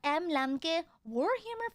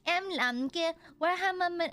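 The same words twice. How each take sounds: First: Warhammer is said with an English accent. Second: Warhammer is said with a Vietnamese accent. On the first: "sometimes it's just like" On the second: "if I were to do it in a Vietnamese accent"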